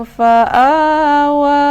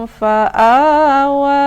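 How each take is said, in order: No difference in how they are said.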